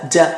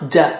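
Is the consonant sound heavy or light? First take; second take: light; light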